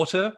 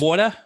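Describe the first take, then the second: First: "water" crisply articulated, with a clear t; articulate Australian "water". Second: Slow, loose Australian "water"; lazy Australian "water". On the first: Voice coach corrects lazy diction, carefully articulated "water". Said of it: "Instead of water". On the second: Voice coach shows sloppy diction, slow lazy "water". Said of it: "lazy with our speech". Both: Shown as a demonstration.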